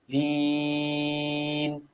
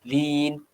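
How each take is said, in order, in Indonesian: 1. Vokal itu dibaca enam ketukan. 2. Vokal itu dibaca dua ketukan. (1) "enam harakat" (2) "dua harakat"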